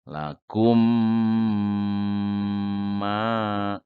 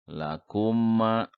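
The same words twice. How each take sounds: First: The m sound is held for about three seconds. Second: The m sound is short, not held at all. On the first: The speaker calls it right. "yang benar ya bacanya ditahan... tahan, M-nya banyak, empat. Tiga detik" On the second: The speaker calls it wrong. "Kalau yang salah misalkan"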